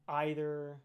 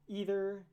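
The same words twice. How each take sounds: First: The first vowel sounds like 'eye'. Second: The first vowel sounds like 'ee'. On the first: "as opposed to either I" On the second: "either being E"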